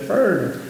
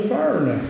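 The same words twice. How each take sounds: First: Said in the usual way. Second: "foreigner" drawled like "fernner", r-coloured, middle syllable dropped; southern pronunciation. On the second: Shown as a demonstration. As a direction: say "foreigner" the southern way as "fer-ner". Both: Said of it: "That's my southern accent".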